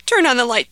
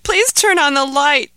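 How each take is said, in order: First: Begging. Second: Higher, louder plea on Please; pleading. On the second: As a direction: beg harder, leaning on Please. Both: Acted. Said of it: "begged Ahmed".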